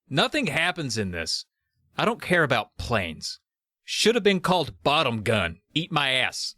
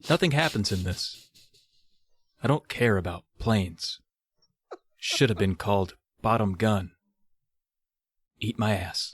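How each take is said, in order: First: It is read in a casual, ordinary way. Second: It is read like a solemn, serious poem.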